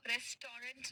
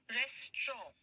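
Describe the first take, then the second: First: "रेस्टोरेंट" in three syllables, res-to-rent, final t sounded; wrong pronunciation. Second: "रेस्ट्रॉ" in two syllables, res-traw, no final t; correct pronunciation. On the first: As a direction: say "रेस्टोरेंट" as spelt, with -rent at the end. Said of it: "नहीं कहेंगे". ("रेस्टोरेंट" का अंतिम ट साफ़ बोलते हुए) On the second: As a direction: say "रेस्ट्रॉ" ending like "straw". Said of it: "इस word को कैसे प्रोनाउंस करेंगे". ("रेस्ट्रॉ" को स्ट्रॉ जैसे अंत के साथ बोलते हुए) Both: Shown as a demonstration.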